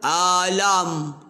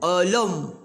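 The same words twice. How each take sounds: First: The vowel sounds overly open, with gaping mouth. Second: The vowel sounds rounded, with pouted lips. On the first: "Kalau nganga, alam. Tu nganga" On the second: "Kalau muncung, alam. Muncung"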